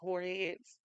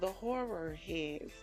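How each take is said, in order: First: The word horror is said quickly and run together. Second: The word horror is said slowly and carefully. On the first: "usually when I say it, it sounds like" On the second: "Y'all see how I pronounce that?"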